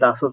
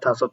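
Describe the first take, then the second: First: The word begins with a d sound. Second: The word begins with an aspirated t sound. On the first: "দাসত হয়" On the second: "থাসত হয়"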